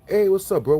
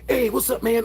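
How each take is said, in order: First: It is said with moderate energy. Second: It is said with very high energy.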